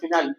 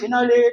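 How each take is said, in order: First: The word ends on the l sound. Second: The word ends with an extra vowel after l. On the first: The speaker calls it right. "நல்ல பிரெஞ்சுல உச்சரிக்கணும்னா ஃபினால்" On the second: The speaker calls it wrong. "Grand ஃபினாலே நடத்துவான்"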